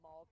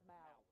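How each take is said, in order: First: The vowel sounds like the word 'mall'. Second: The vowel does not sound like 'mall'. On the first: The speaker calls it wrong. "I was thinking mall like I'm going to the mall" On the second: The speaker calls it right. "but it's mal"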